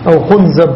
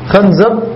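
First: The first vowel is 'u'. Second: The first vowel is 'a'. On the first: "وضمها" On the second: "بفتح الخاء"

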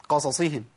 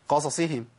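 The two takes are said the same way.

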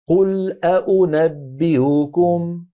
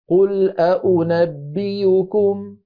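First: The last hamza is softened, not fully stopped. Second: The last hamza is replaced by a y sound. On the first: "تحقيق الأولى وتحقيق الثانية وتسهيل الثالثة" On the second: "مع إبدال الأخيرة"

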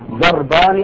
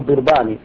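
First: The first vowel is an open 'a' sound. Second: The first vowel is a close 'i' sound. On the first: "الأصل الفتح" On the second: "بكسر الضاد"

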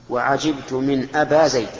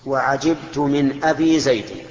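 First: The word before Zayd ends in a long a. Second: The word before Zayd ends in a long i. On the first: The speaker calls it wrong. "هذا القصر، ولغة فصيحة، لكن الأولى أفصح" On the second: The speaker calls it right. "رفعناها بالواو ونصبناها بالألف وجرناها بالياء"

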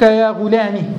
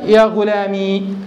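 First: The word ends in a short i sound. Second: The word ends in a long ee sound. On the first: "بالكسر، أي اللغة الأولى" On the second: "هذه اللغة الثانية التي هي بإسكان الياء"

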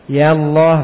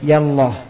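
First: The vowel of 'ya' is held long. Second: The vowel of 'ya' is cut short. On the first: "iya-nya ditetapkan bersamanya alif" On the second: "dibuang alif pada iya-nya"

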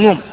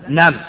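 First: The long vowel is pronounced 'oo'. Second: The long vowel is pronounced 'aa'. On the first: The speaker calls it wrong. "لا تقول نوم" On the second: The speaker calls it right. "تقول له ماذا نام"

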